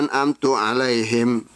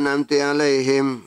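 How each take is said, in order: First: The vowel after an'amt is u. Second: The vowel after an'amt is i. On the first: "taknya didomakan"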